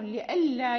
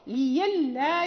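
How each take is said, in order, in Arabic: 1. الصوت الأوسط همزة واضحة. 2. الصوت الأوسط صوت ياء. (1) "فيقرأ قالوا لئلا" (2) "ويقرأ ورش ليلا"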